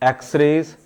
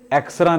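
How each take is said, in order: First: The word ends with a full 'rays' sound. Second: The word ends with a short 'ra' sound. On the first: The speaker calls it right. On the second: The speaker calls it wrong.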